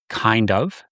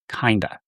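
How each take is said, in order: First: Both words are said fully and separately. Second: The words blend into one reduced word. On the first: "This is sometimes pronounced kind of" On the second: "sometimes it's pronounced kinda"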